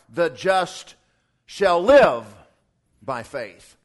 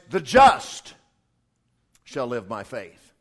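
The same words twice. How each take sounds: First: The stress is on the word live. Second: The stress is on the word just.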